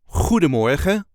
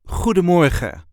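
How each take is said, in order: First: The stress is on the first syllable. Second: The stress is on the third syllable.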